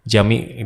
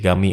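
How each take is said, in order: First: It begins with a soft J sound. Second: It begins with a hard G sound. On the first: This is the standard Arabic form. "masjid itu kan Jami" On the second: This is how it is said in Egypt. "di Mesir ganti Gami"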